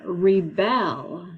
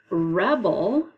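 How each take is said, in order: First: "rebel" drawn out slowly as ree-BELL; stress on second syllable. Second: "rebel" as REB-ul, first syllable strong; stress on first syllable. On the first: Teacher giving students the second word, "rebel" stressed ree-BELL. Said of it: "is the second". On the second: Teacher giving students the first word, "rebel" stressed REB-ul. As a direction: hit the start of "rebel": REB-ul. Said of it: "Rebel is our first one". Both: Shown as a demonstration.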